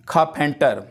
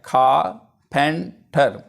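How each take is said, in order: First: Said in the usual way. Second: खाफेंटर said very slowly, syllable by syllable, खा-फें-टर; slow syllable-by-syllable demo of खाफेंटर; split into syllables. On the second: Shown as a demonstration. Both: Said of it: "अब इसको मैंने नीचे divide भी किया है".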